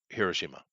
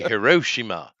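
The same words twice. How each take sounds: First: It is said with a Japanese pronunciation. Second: It is said with an American pronunciation. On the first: The speaker calls it right. "but it's no, it's Hiroshima" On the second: The speaker calls it wrong. "Americans say Hiroshima"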